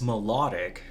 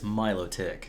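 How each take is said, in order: First: It is said like the word melodic. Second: It is said unlike the word melodic. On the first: The speaker calls it wrong. "You, you would think it's melodic because it's beautiful" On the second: The speaker calls it right. "But it's Milotic"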